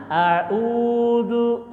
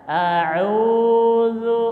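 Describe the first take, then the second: First: "a'udzu" run together with no break; wrong a'udzu. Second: "A'udzu" with a clear break after the ain; a'udzu with pause. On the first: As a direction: blur "a'udzu" without the pause. ("a'udzu" tanpa jeda, salah) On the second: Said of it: "Jadi ada jeda". ("A'udzu" dengan jeda) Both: Shown as a demonstration.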